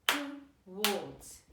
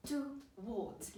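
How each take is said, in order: First: TOWARDS in two separate beats, to - wards; clapped syllables. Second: Said in the usual way. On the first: Shown as a demonstration. Teacher clapping a word with children, TOWARDS syllable by syllable. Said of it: "Let's clap it". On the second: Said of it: "This word says towards".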